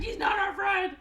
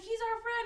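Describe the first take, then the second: First: Shouted denial. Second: High pleading. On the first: Eighteen answers angrily. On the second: Seventeen stops the push. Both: Retold or imitated.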